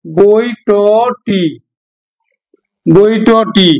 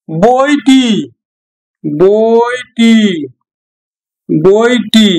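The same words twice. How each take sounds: First: বইটটি with the ট sounded twice, drawn out; doubled t in বইটটি. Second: Said in the usual way. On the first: Shown as a demonstration. Teacher contrasting বইটি with বইটটি for students. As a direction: slowly spell out the double ট in বইটটি. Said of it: "টটা কিন্তু দ্বিত্ব হলো". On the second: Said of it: "তারপর বইটি".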